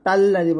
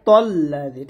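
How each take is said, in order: First: The first syllable sounds light and thin. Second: The first syllable sounds heavy and full. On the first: The speaker calls it wrong. "তাল্লাযী বলা যাবে না" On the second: The speaker calls it right. "বলতে হবে তল্লাযী, ঠিক আছে, মোটা হবে"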